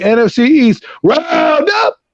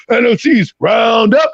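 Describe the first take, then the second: First: Voice cracking. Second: Slower careful retry, raised pitch; second try. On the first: Real, not acted. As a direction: voice cracks high on roundup. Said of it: "Sorry, my voice just cracked there". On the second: Shown as a demonstration. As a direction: try the title again carefully. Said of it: "let me try that again".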